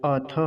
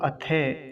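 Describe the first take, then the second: First: "अथ" with a short final a; careful model "अथ"; correct pronunciation. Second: "अथे" with the last vowel turned to e; common mispronunciation. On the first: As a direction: end "अथ" on a short tha, not they. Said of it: "अथे नहीं". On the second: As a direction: end "अथे" on a long -they. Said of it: "कुछ लोग अथे ऐसा बोलते हैं". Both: Shown as a demonstration.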